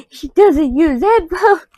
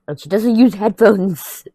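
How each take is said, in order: First: "headphones" wailed high, slow and loud, half crying; mock-despairing cry on "headphones"; exasperated wail. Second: "use" leaned on, slow and louder; slow, louder "doesn't use"; stress on use. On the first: Complaining to viewers about roommate, mock wailing. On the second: Telling viewers about roommate, stressing use. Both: Shown as a demonstration.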